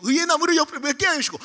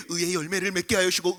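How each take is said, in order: First: Put-on older boys praying. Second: Low monotone prayer, imitated; older boys praying. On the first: (음을 높인 형들의 기도 흉내) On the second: (낮게 읊조리는 형들의 기도 흉내) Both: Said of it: "옆에서 형들이".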